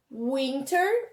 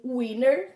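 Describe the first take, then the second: First: "winter" slowly, with the T sounded. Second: "winter" slowly, T dropped so it sounds like winner. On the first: Teacher recapping for pupils, T fully pronounced. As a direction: say "winter" as spelt, clear T. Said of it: "Pode falar ela como se escreve". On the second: Teacher recapping the alternative for pupils, T silent as in winner. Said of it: "pronunciarem com o som de winner". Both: Shown as a demonstration.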